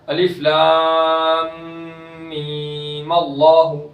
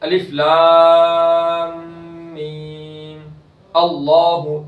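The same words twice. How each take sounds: First: It is said joined, with no pause. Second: It is said with a stop before allahu.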